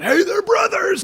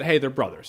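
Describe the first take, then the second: First: Hammed-up shout, much higher, slow; mock on-the-nose movie. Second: Said in the usual way. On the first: Reviewer mocking a clumsy film: hammed-up high shout. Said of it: "it's just the movie going".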